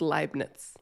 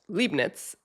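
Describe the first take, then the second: First: The first syllable sounds like "lie". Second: The first syllable sounds like "lee". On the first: The speaker calls it right. "is actually pronounced Lie, not Lee. So it's Leibniz" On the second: The speaker calls it wrong. "which I pronounced Leibniz"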